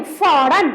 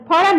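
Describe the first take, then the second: First: फौरन with a strong f, "fauran"; dotted pronunciation. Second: फौरन with a puffed p, "p-hauran"; undotted pronunciation. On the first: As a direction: lengthen the f opening फौरन. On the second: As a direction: start फौरन on aspirated p, not f. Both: Shown as a demonstration. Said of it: "फौरन नहीं, फौरन".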